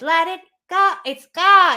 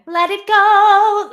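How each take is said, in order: First: Elsa's forward twang, placed in the nose; a hint of Elsa on [name]. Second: High, slow, loud bright Anna singing; Anna's higher twang on [name]. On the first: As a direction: sing it the way Elsa would, forward. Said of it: "Whereas Elsa is". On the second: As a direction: sing it like excitable Anna, up high. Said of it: "if Anna was to sing [name], you'd get". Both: Shown as a demonstration.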